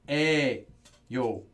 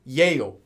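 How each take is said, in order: First: The word starts with a plain vowel sound. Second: The word starts with a y-glide sound. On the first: The speaker calls it right. "Everyone says 에요" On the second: The speaker calls it wrong. "No one says 예요"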